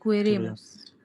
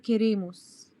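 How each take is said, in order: First: It starts with 'kwe', with a 'w' sound. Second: It starts with a plain 'ke' sound, no 'w'. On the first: The speaker calls it wrong. "مش" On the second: The speaker calls it right. "فبنقول كي"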